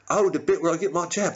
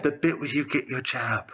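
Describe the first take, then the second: First: High, quick sleeper's reply; roused sleeper. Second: Even, composed voice of the nation; voice of Britain. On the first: Sleeper answering Britain about the jab, roused and quick. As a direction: catch on quickly, pitched up. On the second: Britain prompting a sleeper about the jab, composed. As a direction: echo it back evenly as Britain. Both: Acted.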